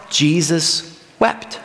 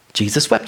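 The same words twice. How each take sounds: First: Slow recitation. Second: Low repeat. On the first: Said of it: "John chapter eleven, verse thirty-five". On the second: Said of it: "You just memorized the Bible verse". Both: Shown as a demonstration.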